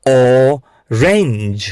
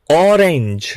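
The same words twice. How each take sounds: First: "orange" broken after a long ઓ; slow sounding-out. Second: Said in the usual way. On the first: Shown as a demonstration. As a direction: draw out "orange" in two parts for learners. ("Orange" ખૂબ ધીમે, ઓ છૂટો પાડીને) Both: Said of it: "બોલો, આને કહેશો".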